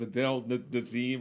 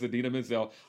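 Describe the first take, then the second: First: The name is garbled into Adele Dazeem. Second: The name is said clearly as Adina Menzel. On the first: The speaker calls it wrong. "The [name] pronunciation is" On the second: The speaker calls it right. "the correct pronunciation is"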